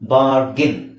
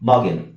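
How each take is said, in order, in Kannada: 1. ಈ ಪದದಲ್ಲಿ r ಧ್ವನಿ ಉಚ್ಚರಿಸಲಾಗುತ್ತದೆ. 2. ಈ ಪದದಲ್ಲಿ r ಧ್ವನಿ ಬಿಟ್ಟುಬಿಡಲಾಗುತ್ತದೆ.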